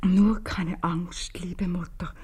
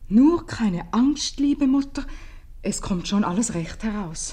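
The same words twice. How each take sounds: First: Slow breathless whisper of the note; whispered reading. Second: Slow, loud and higher, each word spelled out; reading the note aloud. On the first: Mother reading her daughter's note to herself, whispered slowly. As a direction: read the note under your breath, very slowly. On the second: Mother reads her daughter's note aloud to Gabriel, slow and loud. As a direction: read the note out proudly, slowly. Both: Acted.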